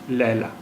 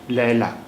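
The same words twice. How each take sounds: Both takes have the same delivery.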